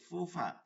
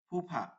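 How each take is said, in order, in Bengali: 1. শব্দটি আরবি f ধ্বনি দিয়ে উচ্চারিত হয়। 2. শব্দটি বাংলা f ধ্বনি দিয়ে উচ্চারিত হয়। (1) "কিন্তু এটা হবে কি ফুফা" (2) "বাংলা হলে বলতাম ফুফা"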